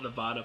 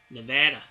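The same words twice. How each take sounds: First: Nevada is pronounced a non-American way. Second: Nevada is pronounced the American way. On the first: "I call it Nevada for some reason. I guess it's an a- accent thing" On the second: "That's how the Americans say it"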